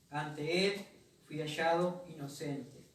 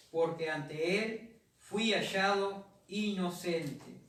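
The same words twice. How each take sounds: First: Said in the usual way. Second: "porque ante él fui hallado inocente" drawn out, every word weighted; slow emphasis. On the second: Shown as a demonstration. Pastor stresses Daniel's innocence to the church, slow emphatic reading.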